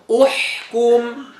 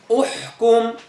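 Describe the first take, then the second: First: The h sound is clear and distinct. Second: The h sound is muffled and unclear. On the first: The speaker calls it right. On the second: The speaker calls it wrong.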